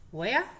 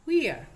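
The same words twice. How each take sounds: First: "Where" as loud rising we-a; "ea" diphthong drill. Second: "Where" as loud falling wi-a; "ia" diphthong drill. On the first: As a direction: say "Where" with an e vowel into schwa, R silent. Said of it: "que son el E A". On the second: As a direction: say "Where" with an i vowel into schwa, R silent. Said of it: "y el I A". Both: Shown as a demonstration.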